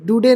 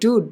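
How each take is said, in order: First: A final vowel sound is pronounced after the d. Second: The word ends on the d with no vowel. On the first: The speaker calls it wrong. "डूडे नहीं" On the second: The speaker calls it right. "ई silent है"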